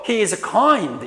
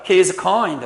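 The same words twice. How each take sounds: First: The word kind is given strong stress. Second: The word kind is not given strong stress. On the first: The speaker calls it right. "이렇게 여러분들 강하게 발음을 하는 것입니다" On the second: The speaker calls it wrong.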